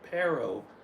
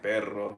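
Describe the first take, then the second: First: The R in the middle is English-style. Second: The R in the middle is rolled. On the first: The speaker calls it wrong. "they say perro" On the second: The speaker calls it right. "they can't roll their R's, so instead of saying like perro"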